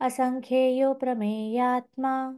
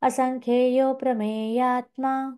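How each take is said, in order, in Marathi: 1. 'prameyatma' च्या आधीचा छोटा 'a' गाळला जातो. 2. 'prameyatma' च्या आधीचा छोटा 'a' गाळला जातो.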